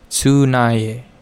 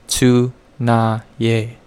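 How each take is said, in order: First: The word is said at a moderate speed. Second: The word is said slowly, syllable by syllable. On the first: "Now a little quicker" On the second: "Let's slow that down a little bit"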